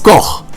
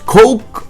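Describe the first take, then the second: First: The name is said with a German guttural ending. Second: The name is said to rhyme with English coke. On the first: The speaker calls it right. "the correct pronunciation of Koch is Koch" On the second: The speaker calls it wrong. "not Coke"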